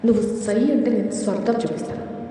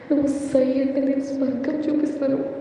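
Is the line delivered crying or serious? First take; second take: serious; crying. First: The line is spoken in a serious tone. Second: The line is spoken while crying. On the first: "దీన్ని నేను సీరియస్గా చెప్తున్నాను" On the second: "ఇప్పుడు ఇదే dialogue ఏడుస్తూ విందాం"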